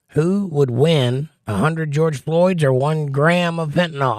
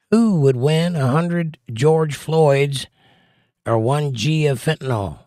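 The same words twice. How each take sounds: First: "win" closed off with a pause before "a hundred"; pause at the comma. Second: No break between "win" and "a hundred"; read without the comma. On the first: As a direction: clear break after "win". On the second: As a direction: run "win" straight into "a hundred". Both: Shown as a demonstration. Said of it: "Commas are important".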